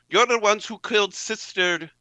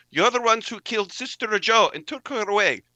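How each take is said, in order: First: High, loud furious accusation; accusing shout. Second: High, loud furious accusation, full sentence; accusing shout. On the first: Sister B confronts the men who killed her sister, shouting. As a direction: hurl the blame at them as you shoot. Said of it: "and she says". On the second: Sister B accuses the killers of Sister Joe, shouting. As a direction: spit it out before pulling the trigger. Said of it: "She says". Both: Acted.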